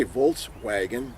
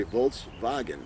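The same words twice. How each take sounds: First: Said in the usual way. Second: "Volkswagen" slowly, with the W as a V; V in place of the W in "Volkswagen"; German pronunciation. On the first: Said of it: "They can't say Volkswagen". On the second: Shown as a demonstration. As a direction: draw out "Volkswagen" as VOLTS-VAH-gen. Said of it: "they say Volkswagen".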